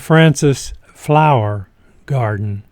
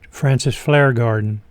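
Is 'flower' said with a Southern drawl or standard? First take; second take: standard; Southern drawl. First: Flower is said in a standard, non-Southern way. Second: Flower sounds like 'flare' in a Southern accent.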